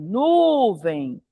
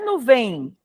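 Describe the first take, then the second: First: The stress is on the first syllable. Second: The stress is on the last syllable. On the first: The speaker calls it right. "é nuvem. Então é paroxítona" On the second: The speaker calls it wrong. "não é nuvem"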